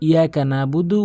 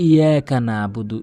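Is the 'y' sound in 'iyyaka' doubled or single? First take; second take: single; single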